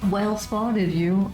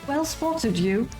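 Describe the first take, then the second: First: It is said in a Californian surfer accent. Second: It is said in an English accent. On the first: The speaker calls it wrong. "imagine that in a surfer accent. It's not gonna work" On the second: The speaker calls it right. "they write him like he has an English accent"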